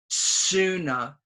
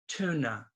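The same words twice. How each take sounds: First: The word begins with a ts sound. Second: The word begins with a plain t sound. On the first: The speaker calls it wrong. "don't say S. It's not tuna" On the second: The speaker calls it right. "It's t tuna"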